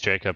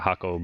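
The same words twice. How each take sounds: First: The name begins with a J sound. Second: The name begins with an H sound. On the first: "my name's Jacob" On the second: "The J's are H's. ... it's pronounced uh, Jacob"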